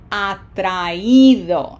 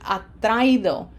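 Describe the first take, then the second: First: The i is separate and carries the stress. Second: The a and i merge; stress falls on a. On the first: The speaker calls it right. "Emphasis has to be on this I ... it separates it then from the A, and so we end up with atraído" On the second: The speaker calls it wrong. "They get joined together in one syllable, ... because the A is strong, it dominates. So this would sound atraído, violating our rules"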